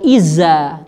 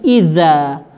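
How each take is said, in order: First: The middle consonant is a plain z sound. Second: The middle consonant is a voiced th sound. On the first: The speaker calls it wrong. "bukan iza" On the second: The speaker calls it right. "tetapi iza"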